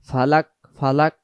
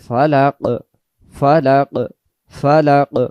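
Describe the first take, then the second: First: The final consonant is a plain front k. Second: The final consonant is a deep, echoing back q. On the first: The speaker calls it wrong. "ফালাক ফালাক বললে এটা কাফ হয়ে যাবে" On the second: The speaker calls it right. "উচ্চারণ কলকলা হবে"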